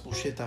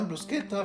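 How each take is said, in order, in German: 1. Der mittlere Konsonant klingt wie 'sh'. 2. Der mittlere Konsonant klingt wie 'sk'. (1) "dass Bruschetta falsch ist" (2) "mit Ske"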